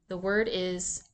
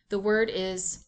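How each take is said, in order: Both takes have the same delivery.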